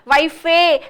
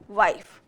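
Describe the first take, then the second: First: The word ends with an added vowel sound. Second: The word ends in a bare f sound. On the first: The speaker calls it wrong. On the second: The speaker calls it right.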